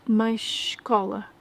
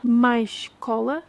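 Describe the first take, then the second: First: "mais escola" slow, sounding like mais cola; slow demo. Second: "Mais cola" slow, sh joined to cola; slow demo. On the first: Teacher slowly saying mais escola to match mais cola. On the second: Teacher slowly saying mais cola for comparison. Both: Shown as a demonstration. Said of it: "pronunciadas da mesma maneira".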